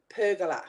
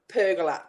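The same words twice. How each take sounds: No difference in how they are said.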